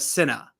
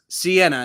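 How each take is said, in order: First: The name begins with a short 'sin' sound. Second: The name begins with a long 'see' sound. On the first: The speaker calls it wrong. "not a Sinna" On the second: The speaker calls it right. "She's Sienna"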